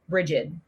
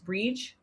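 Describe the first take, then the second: First: The name is said in its English form. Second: The name is said in its Irish form. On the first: "the English version is" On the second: "The Irish version is"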